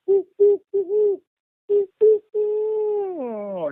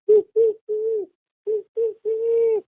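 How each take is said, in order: First: Mock angry owl whooping that sinks at the end; angry owl hoots. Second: High falsetto owl hoots, drawn out slowly; mimicking a classic barred owl call. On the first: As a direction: hoot like an agitated owl sounding a warning. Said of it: "it did, like". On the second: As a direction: hoot like a barred owl calling at dusk. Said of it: "you start hearing this owl going".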